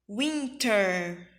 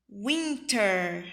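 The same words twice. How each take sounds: No difference in how they are said.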